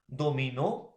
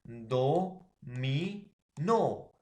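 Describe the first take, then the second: First: Said in the usual way. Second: "Do, mi, no" one syllable at a time; stress on last syllable. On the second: Shown as a demonstration. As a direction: separate each syllable and hit NO loudest. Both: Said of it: "la mayor fuerza de voz está en la última".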